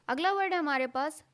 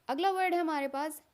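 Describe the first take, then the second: No difference in how they are said.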